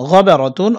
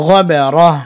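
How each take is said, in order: First: Said in the usual way. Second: গবারাহ stopped on a breathed h instead of "tun"; pausal ending. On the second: Shown as a demonstration. Teacher shows the stopping rule, গবারাহ ending in h. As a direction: end গবারাহ on a still, audible h. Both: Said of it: "অক্ফের সময় গোলতা হা হবে".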